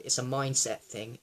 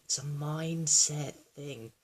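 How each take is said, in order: First: Said in the usual way. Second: MINDSET stretched out slowly; slow it right down to drive the point home; slow, drawn-out emphasis. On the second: Real, not acted. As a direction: draw out "mindset thing" at half speed. Repeats phrase for emphasis.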